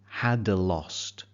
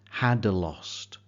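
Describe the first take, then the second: Both takes have the same delivery.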